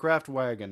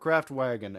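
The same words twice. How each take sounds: First: It is said with an American-style pronunciation. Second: The same.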